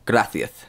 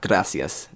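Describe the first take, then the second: First: The c is said with a th sound. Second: The c is said with an s sound. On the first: "they use the same the th sound for like a for like a, the the s's. So they say gracias" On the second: "not gracias"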